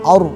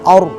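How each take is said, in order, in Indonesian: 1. Bibir ikut membulat saat bunyi r. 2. Bibir ikut membulat saat bunyi r.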